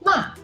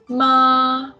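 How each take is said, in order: First: The pitch falls sharply from high. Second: The pitch stays level and high. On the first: "The fourth tone is a falling tone" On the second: "Ma is a flat tone"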